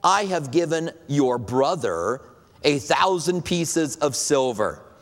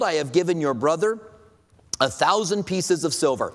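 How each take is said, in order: First: It is read in a sarcastic tone. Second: It is read in a plain, neutral tone.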